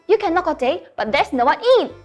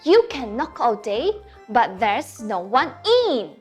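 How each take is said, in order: First: It is recited at a very fast pace. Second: It is recited at a slower pace.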